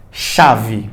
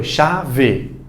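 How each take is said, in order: First: Said in the usual way. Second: "chave" slowly as cha-ve, with full final e; separado por sílabas. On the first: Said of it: "tem a sua pronúncia". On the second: Shown as a demonstration. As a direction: split "chave" into two measured syllables. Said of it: "Primeiro separa por sílaba". ("chave" devagar, sílaba por sílaba)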